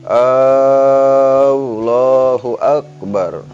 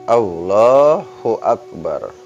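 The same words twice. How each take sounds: First: The opening vowel is drawn out long. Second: The opening vowel is kept short. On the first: The speaker calls it wrong. "Enggak boleh memanjangkan hamzah jalalah... Enggak boleh dibaca" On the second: The speaker calls it right. "Tetap harus dibaca eh, pendek"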